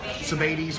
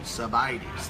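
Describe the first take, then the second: First: The middle syllable does not sound like 'buy'. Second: The middle syllable sounds like the word 'buy'. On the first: The speaker calls it wrong. "I've been saying it wrong all along" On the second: The speaker calls it right. "like buy me a cup of coffee"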